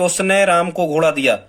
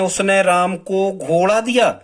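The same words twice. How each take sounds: First: The word उसने carries the stress. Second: The word घोड़ा carries the stress. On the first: "मतलब हम उसने पे जोर दे रहे हैं" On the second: "अब हम घोड़ा पे जोर दे रहे हैं"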